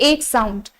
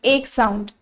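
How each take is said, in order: Both takes have the same delivery.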